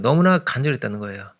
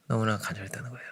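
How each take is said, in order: First: Said in the usual way. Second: 너무나 간절했다는 거예요 breathed in a hushed whisper, much softer; whispered echo. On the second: Shown as a demonstration. Preacher to congregation, echoing the blind man's longing in a whisper. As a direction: let the repeat sink to a whisper. Repeats line, then whispers it.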